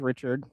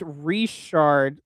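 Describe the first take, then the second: First: The name is said as plain English 'Richard'. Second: The name is said as 'Reshard', starting with 're'. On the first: The speaker calls it wrong. "He's probably gonna butcher mine. He probably says Richard" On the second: The speaker calls it right. "no, it's it's reshard like re and"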